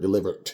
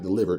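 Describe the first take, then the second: First: The word ends with a sharp T sound. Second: The word ends with a plain D sound. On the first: "delivered with a T" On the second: "Not delivered"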